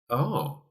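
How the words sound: The 'oh' sounds doubtful and uncertain. The speaker has some doubt. "then all of a sudden there's a little bit of doubt creeping in"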